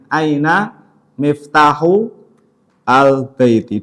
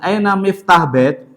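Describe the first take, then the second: First: The final vowels of the words are pronounced. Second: The final vowels of the words are dropped. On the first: "alangkah baiknya kita sebutkan harokat terakhirnya" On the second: "huruf terakhir di di sukun itu sudah benar"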